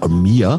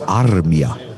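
First: The name is said with American pronunciation. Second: The name is said with its native pronunciation. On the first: The speaker calls it wrong. "in Amerika sind sie völlig bekloppt, sagen immer Armia" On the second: The speaker calls it right. "aber mir wurde dann erzählt, der heißt Armia"

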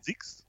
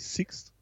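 First: The opening S is soft and voiced. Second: The opening S is sharp and voiceless.

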